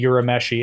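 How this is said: The name is said with an American accent. "they pronounce them with an American accent"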